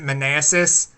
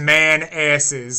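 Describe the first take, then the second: First: The name is said smoothly as one word. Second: The name is split into two words. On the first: This is how the locals say it. "I think they pronounce it Manassas" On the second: This is how the sign reads as a joke. "that sign says man asses"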